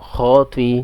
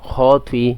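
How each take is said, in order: Both takes have the same delivery.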